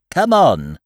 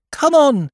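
First: Loud call, moderately high; raised-voice owl summons, falling at the end. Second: Put-on high, loud boyish call; ringing high-pitched summons. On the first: Acted. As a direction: call it out loudly down the line. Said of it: "called Owl". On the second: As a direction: shout it from the front of the line, pitched right up. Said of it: "called Christopher Robin".

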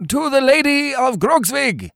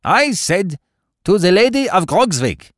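First: Very high cheering cry, little extra volume; shouted group toast. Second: Raised-pitch, commanding Baron; insistent repeated toast. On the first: Twenty-four Lincoln Greens answer the Baron, high shouted toast. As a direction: cheer it like a whole crew, pitched way up. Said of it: "shouted the Lincoln Greens". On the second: Baron repeats himself to pale companions, insistent high toast. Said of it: "repeated the Baron, looking round the board". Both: A narrator's reading.

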